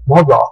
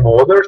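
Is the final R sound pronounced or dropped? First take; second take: dropped; pronounced. First: The final R is dropped, British style. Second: The final R sound is pronounced.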